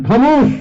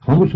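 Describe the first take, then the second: First: High, loud call for silence; sudden raised-voice command to hush; commanding cry. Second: Said in the usual way. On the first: Retold or imitated. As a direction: cry it out sharply as an order. Prophet silences the angry companions.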